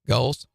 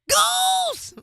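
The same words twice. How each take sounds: First: It is said in the speaker's ordinary voice. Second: It is said in a put-on character voice. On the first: The speaker calls it wrong. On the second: The speaker calls it right.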